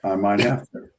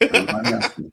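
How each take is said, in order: First: Said in the usual way. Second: The same words again, much higher and teasing; playful high repeat. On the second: Real, not acted. Coach repeating his answer about videotaping, playful high repeat. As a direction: tease it back in a lifted voice.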